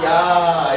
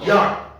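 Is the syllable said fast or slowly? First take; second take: slowly; fast. First: It is said slowly as two vowels. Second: It is said quickly as one gliding syllable. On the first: "천천히 발음하면" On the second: "빨리 발음하면"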